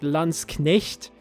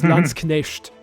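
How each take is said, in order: First: The end has a soft 'ch' sound. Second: The end has an 'sh' sound. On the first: It matches modern standard German. "if you want to get close to modern German" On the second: It matches southwestern German dialects. "if you want to be, sound like southwestern German"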